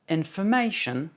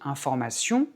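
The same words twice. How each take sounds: First: It is said with an English pitch accent. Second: It is said flat, in a French way. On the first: "en anglais, information" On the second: "en français on dit information"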